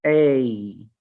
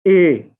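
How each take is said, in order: First: ए said with a glide toward ई; correct gliding diphthong. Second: ए said as one flat vowel with no glide, loud; wrong flat vowel. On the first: Teacher models the correct ए diphthong for students, gliding. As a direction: let ए glide toward ई, the right way. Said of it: "ए नहीं है". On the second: Teacher shows the wrong flat ए to students, loudly. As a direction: hit ए flat and loud as the mistake. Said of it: "हम ऊपर वाले को क्या पढ़ते हैं?". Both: Shown as a demonstration.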